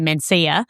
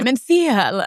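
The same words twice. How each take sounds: First: It is said with a plain Australian accent. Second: It is said with a Spanish-sounding accent. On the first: "we could just say Mencia" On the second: "try and sound like a, a bit of a wanker"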